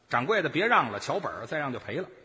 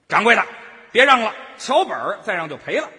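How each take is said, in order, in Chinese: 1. 这声喊调门更低，声音更轻。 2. 这声喊调门更高，声音更响。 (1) "调门要高一点点" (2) "就是声大一点"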